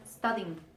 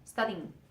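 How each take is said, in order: No difference in how they are said.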